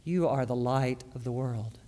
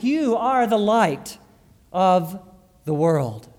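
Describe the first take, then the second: First: Much softer, lower, stress on You; hushed reflective repeat; quiet echo. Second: Slow, stress on You; You are the light, slow and weighted on You; emphatic. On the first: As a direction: let You are the light of the world fall soft and low. Quiet repeat after emphatic take. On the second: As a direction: lean hard on You, slowly. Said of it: "It's emphatic". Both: Shown as a demonstration.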